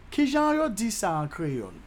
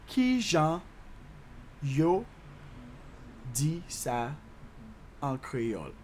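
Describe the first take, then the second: First: Said in the usual way. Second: "Ki jan", "yo", "di sa", "an kreyòl" with long gaps; slow breakdown. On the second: Shown as a demonstration. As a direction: chunk by chunk, pitch stepping down. Teacher breaks Creole question down.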